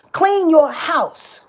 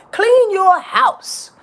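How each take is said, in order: First: Slow stretched "Clean", a bit higher; emphatic command. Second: Slow, much higher, stretched "Clean"; emphatic command. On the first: Repeating her advice to listeners, slow and firm. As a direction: lean on each word. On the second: Telling listeners to prepare, slow emphatic command. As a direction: hammer each word slowly. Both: Real, not acted. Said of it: "so emphatically and so passionately".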